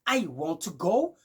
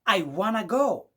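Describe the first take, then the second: First: Want to is said as two full words. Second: Want to is blended into one word, wanna. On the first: "au lieu de dire" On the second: "vous allez écouter du genre"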